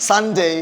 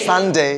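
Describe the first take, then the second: The two takes are said the same way.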